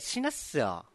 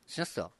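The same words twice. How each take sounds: First: It is said lightly, in a joking way. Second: It is said in a scary, threatening way. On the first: The threat is not meant seriously. "お笑い的なね" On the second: The threat sounds like it is meant. "今のは怖い、めっちゃ言い方。"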